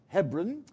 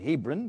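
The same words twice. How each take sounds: First: It is said in the South African way. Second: It is said in the speaker's usual way. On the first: This is how the South African hosts say it. "but they pronounce it Hebron" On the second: This is how the speaker's own community says it. "We would pronounce it Hebron"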